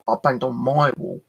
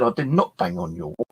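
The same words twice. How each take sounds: First: "my" hit hard and falling in "I banged on my wall"; stress on my. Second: "not" hit hard and falling in "I did not bang on your wall"; stress on not. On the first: To the neighbour, correcting her: stress on "my". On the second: To the neighbour, denying it: stress on "not". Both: Retold or imitated. Retold row over banging.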